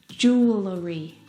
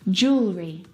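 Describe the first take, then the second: First: An extra vowel gives the word three syllables. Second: The extra vowel is dropped, giving two syllables. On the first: The speaker calls it wrong. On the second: The speaker calls it right.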